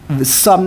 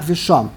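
First: The word is said with an s sound. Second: The word is said with an sh sound. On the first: The speaker calls it right. "it's meant to be pronounced the sum" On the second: The speaker calls it wrong. "not v'shom"

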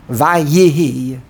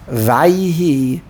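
First: The Y carries a short vowel: va-ye-hi. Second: The Y has no vowel: vay-hi. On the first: The speaker calls it wrong. "The yud should be a shvano" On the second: The speaker calls it right. "Vay. Vayihi, a Shvanoch"

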